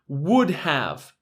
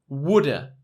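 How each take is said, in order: First: The word have is said in full. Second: The word have is reduced to a.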